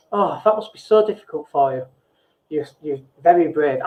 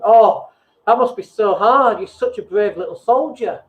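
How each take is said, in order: First: Gentle, caring sympathy for someone struggling; sincere sympathy. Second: Condescending. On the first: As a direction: soothe them like you truly feel for them. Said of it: "you can say things like". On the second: Coach failing at empathy, sounding patronising. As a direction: talk down to them like a child. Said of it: "without sounding really condescending". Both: Shown as a demonstration.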